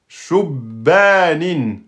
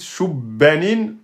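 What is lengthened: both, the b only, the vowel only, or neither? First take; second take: both; b only. First: The b is doubled; the vowel after it is long. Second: The b is doubled; the vowel after it is short. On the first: The speaker calls it right. "vous devez respecter la shadda et la prolongation" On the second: The speaker calls it wrong. "vous avez respecté la shadda, mais vous avez oublié le alif"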